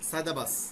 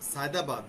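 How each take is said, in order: First: The final d is dropped and replaced by s. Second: The word ends with a clear d sound.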